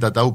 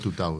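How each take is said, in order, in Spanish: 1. La primera vocal es un sonido 'a'. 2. La primera vocal es un sonido 'u'. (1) "Siempre dije Tatau" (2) "pero es Tutau"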